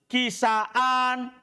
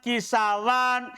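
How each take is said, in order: First: A glottal stop comes before the final vowel. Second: A w sound comes before the final vowel. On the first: "tetap hamzanya" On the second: "Bisa juga antum ubah waw"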